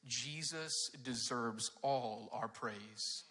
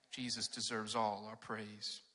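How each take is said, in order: First: "Jesus deserves all our praise." drawn out very slowly, with weight on "all"; slow emphatic. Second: Said in the usual way. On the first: Shown as a demonstration. Pastor giving the kids the bottom line, slow and emphatic. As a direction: lean on every word of the main point. Stating the main point.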